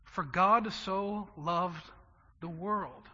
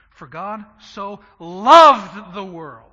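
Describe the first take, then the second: First: Said in the usual way. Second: For God so loved the world, slow, much louder, loved swelling and falling; stress on loved. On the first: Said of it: "We, we say that wrong". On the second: Shown as a demonstration. Pastor showing the congregation the right way to say the verse, slow and loud with loved stressed. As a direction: lean hard on loved and stretch the whole verse. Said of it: "We need to say it like this".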